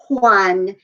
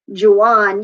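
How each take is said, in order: First: The word starts with an H-like sound. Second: The word starts with an English J sound. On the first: The speaker calls it right. "J makes the H sound" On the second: The speaker calls it wrong. "They're not going to be"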